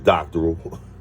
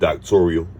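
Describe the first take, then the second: First: It is said with three syllables. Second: It is said with four syllables. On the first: The speaker calls it right. "It's doctoral" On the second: The speaker calls it wrong. "which is not a word"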